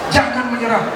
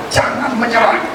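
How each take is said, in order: Both takes have the same delivery.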